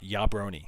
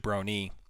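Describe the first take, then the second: First: The word begins with a soft Y sound. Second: The word begins with a hard J sound. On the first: This is the original pronunciation. "Originally a soft J" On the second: This is the later, current pronunciation. "migrated over to Jabroni"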